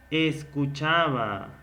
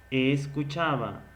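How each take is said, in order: First: Escuchaba with the s hissed and stretched; drawn-out s sound. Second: Said in the usual way. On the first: Shown as a demonstration. Teacher to student, stretching the hissed s. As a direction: lean on the s in Escuchaba, slow. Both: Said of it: "¿suena o no suena más?".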